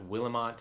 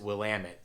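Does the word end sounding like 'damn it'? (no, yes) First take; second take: no; yes. First: The ending does not rhyme with 'damn it'. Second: The ending rhymes with 'damn it'. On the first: The speaker calls it wrong. "It's not Willamette" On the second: The speaker calls it right. "kind of rhymes with damn it"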